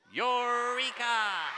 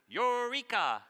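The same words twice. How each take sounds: First: Long, high, loud stretched-out cry; really excited eureka. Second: High, loud triumphant call; eureka cry. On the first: Author shows how to say it really excited, slow and loud. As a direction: thrill at a big discovery. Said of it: "really excited because you discovered something". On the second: Scientist crying out a discovery to the class, high and loud. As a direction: announce a discovery. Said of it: "scientists like to say when they discover". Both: Shown as a demonstration.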